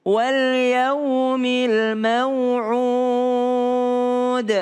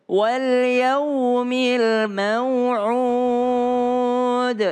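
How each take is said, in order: The two takes are said the same way.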